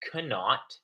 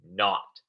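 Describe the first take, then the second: First: The K at the start is pronounced. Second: The K at the start is silent. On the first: The speaker calls it wrong. "It's not cannot" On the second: The speaker calls it right. "it's pronounced not. The K is silent"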